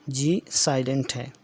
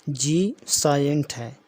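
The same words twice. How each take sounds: No difference in how they are said.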